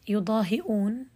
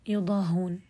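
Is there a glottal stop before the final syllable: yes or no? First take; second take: yes; no. First: A glottal stop is heard before the ending. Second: No glottal stop is heard before the ending.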